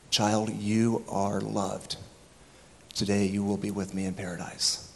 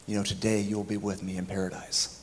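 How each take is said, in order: First: Tender. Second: Said in the usual way. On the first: Retold or imitated. Jesus's words retold tenderly.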